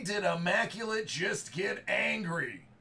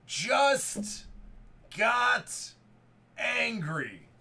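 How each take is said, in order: First: Said in the usual way. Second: Spaced out, word by word for effect; each word punched. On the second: Real, not acted. Breaker repeating his line to viewers, each word punched apart.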